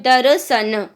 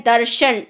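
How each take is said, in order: First: "दर्शन" eased to darsan, plain "स" in place of "श"; easier tadbhav form. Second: "दर्शन" with a full, firm "र्श" cluster, pressed out; effortful tatsam form. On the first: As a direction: say "दर्शन" loosely as darsan, no effort. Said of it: "ये थोड़ा easy हो गया बोलने में". ("दर्शन" आसानी से, "दरसन" की तरह) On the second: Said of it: "शब्द पे अच्छा सा जोर लगा के बोलना पड़ रहा है". ("दर्शन" ज़ोर लगाकर, "र्श" साफ़ बोलें) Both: Shown as a demonstration.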